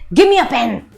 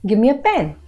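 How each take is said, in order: First: It is said in an angry tone. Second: It is said in a flat, neutral tone. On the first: The speaker is annoyed. "I'm angry" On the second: The speaker is simply stating it. "I'm just saying in a neutral tone"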